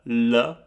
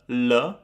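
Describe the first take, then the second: Both takes have the same delivery.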